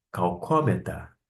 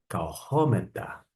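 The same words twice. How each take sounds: First: "calcômeta" with a hard k in the middle; "calcômeta" with k replacing the breathed h; hard k variant. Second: "Kaurometa" with a breathed h in the middle; "Kaurometa" with an airy h for the r; soft aspirated sound. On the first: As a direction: say "calcômeta" as kau-KO-meta. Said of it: "som do C H alemão". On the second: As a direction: say "Kaurometa" as kau-HO-meta, with an h. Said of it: "ao invés do som do C H alemão". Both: Shown as a demonstration.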